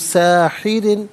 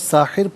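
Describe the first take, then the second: First: The word ends with an added 'in' sound. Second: The word stops on the bare 'r' sound.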